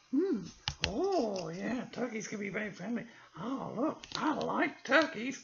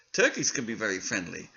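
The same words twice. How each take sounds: First: The puppet copies the reader. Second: Said in the usual way. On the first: Acted. Puppet repeats the narration.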